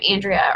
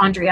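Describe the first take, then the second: First: "Andrea" with the a of "and"; first pronunciation. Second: "Andrea" as AHN-dree-uh, offered as an alternative; alternative pronunciation. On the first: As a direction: say "Andrea" the common English way, AN-dree-uh. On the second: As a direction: say "Andrea" with an open AHN at the start. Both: Shown as a demonstration. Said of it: "I'm not sure how you pronounce your name".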